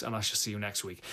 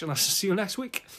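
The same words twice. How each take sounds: First: Said in the usual way. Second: Much higher, playful lilt; high sing-song sign-off. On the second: Acted. Second sign-off, pitched way up.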